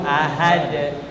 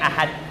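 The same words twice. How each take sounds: First: The final d is released clearly with a bounce. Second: The final d is swallowed without a clear release. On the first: The speaker calls it right. "D-nya jelas" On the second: The speaker calls it wrong. "bukan ahad"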